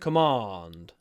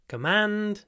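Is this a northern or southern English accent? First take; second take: southern; northern. First: It is said in a southern English accent. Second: It is said in a northern English accent.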